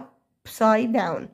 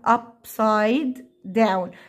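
First: The two d sounds merge into one. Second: Both d sounds are pronounced separately. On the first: "فبنطير واحدة منهم في النطق فبنقول" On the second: "وممكن تقولها upside down"

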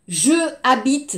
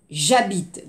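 First: The vowel of je is said separately. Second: The vowel of je is dropped and joined. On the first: The speaker calls it wrong. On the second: The speaker calls it right.

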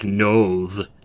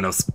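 First: The word ends with a buzzing z sound. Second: The word ends with a hissing s sound. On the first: "you pronounce the S like a Z" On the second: "pronounce it as an S"

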